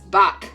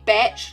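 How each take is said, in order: First: The name ends in a 'k' sound. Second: The name ends in a 'tch' sound. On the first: "Or if it's buck, like the musician" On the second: "I never know if it's meant to be batch"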